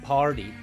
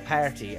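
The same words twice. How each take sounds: First: It is said in an American accent. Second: It is said in an Irish accent. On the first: The speaker calls it wrong. "5 years ago I would have said party" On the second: The speaker calls it right. "now I say party"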